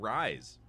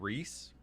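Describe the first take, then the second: First: The vowel sounds like 'eye', rhyming with 'rice'. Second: The vowel sounds like 'ee', rhyming with 'piece'. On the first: The speaker calls it wrong. "I said rise" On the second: The speaker calls it right. "or is it Reese?"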